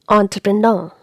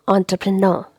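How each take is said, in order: No difference in how they are said.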